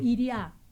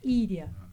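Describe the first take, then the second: First: The stress is not on the first syllable. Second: The stress is on the first syllable. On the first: "ou iriá" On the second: "o acento está no I, como Íria"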